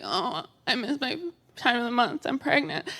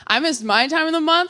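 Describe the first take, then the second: First: Soft, small confiding voice; imitated worried friend. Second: High, full-voiced setup with MY; comic self-contrast. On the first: Friend confiding a pregnancy scare, soft imitation. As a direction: confide it softly, as a friend would. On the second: Abstinent teen telling her own scare, high and full-voiced. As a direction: pitch it high, turning it to "my".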